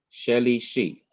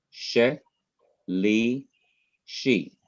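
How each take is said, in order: First: Said in the usual way. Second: "She, li, she" in separate syllables, a pause after each. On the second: Shown as a demonstration. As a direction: break "She, li, she" into three isolated beats. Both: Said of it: "it's a three syllable word".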